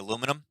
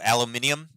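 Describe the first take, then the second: First: It is said the American way. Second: It is said the English way. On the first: "I just say aluminum" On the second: "aluminium is how the uh, I guess the English say it"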